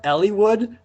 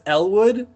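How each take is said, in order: First: The middle i vowel is pronounced. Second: The middle i vowel is dropped. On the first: "Did you just pronounce the I" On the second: "forget that the I was even there"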